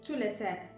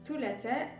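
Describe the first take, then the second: First: The word begins with a plain t sound. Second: The word begins with a soft th sound.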